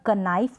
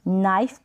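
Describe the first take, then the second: First: A k sound is heard before the n. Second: The word starts directly with the n sound. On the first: The speaker calls it wrong. "कनाइफ नहीं पढ़ेंगे" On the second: The speaker calls it right. "नाइफ पढ़ेंगे"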